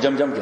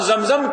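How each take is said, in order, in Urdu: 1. دونوں syllable j کی آواز سے شروع ہوتے ہیں۔ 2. دونوں سلیبل z کی آواز سے شروع ہوتے ہیں۔ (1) "ہمارے بنگلہ دیش کے بھائی وہ زمزم کو جمجم کہتے ہیں" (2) "ہم زمزم کہتے ہیں"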